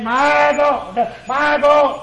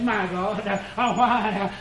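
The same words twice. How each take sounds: First: Raised, higher cry of anguish. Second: Hushed take. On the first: Preacher voicing Jesus crying out, loud and high. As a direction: lift it up like a cry from the cross. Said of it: "he cried with a loud voice". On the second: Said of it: "but here he says". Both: Acted.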